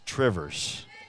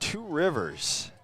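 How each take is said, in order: First: It is smushed together into one word. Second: It is said as two separate words.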